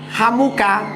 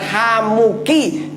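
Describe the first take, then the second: First: The word ends with an 'a' vowel. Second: The word ends with an 'i' vowel. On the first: It refers to the brother-in-law of a man. The speaker calls it wrong. "membacanya kok Hamuka, nanti maknanya jadi lucu" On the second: It refers to the brother-in-law of a woman. The speaker calls it right. "yang benar Hamuki"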